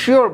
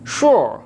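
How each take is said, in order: First: The vowel starts with an ee-like sound. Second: The vowel sounds like a rounded oo-o. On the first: The speaker calls it wrong. "আমরা প্রায়ই শিওর বলে থাকি" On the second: The speaker calls it right. "কিন্তু উচ্চারণ কি হবে"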